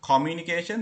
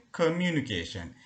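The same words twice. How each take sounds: First: Communication dit avec un o ouvert, à la sri-lankaise; Sri Lankan pronunciation. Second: Communication with the o turned to an a sound, American style; American pronunciation. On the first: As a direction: communication with a clear short o, Sri Lankan style. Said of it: "instead of communication". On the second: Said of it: "they say communication". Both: Shown as a demonstration.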